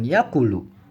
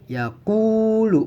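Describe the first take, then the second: First: The middle vowel is cut short. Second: The middle vowel is held long. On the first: The speaker calls it wrong. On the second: The speaker calls it right. "Ku-nya ini dibaca panjang"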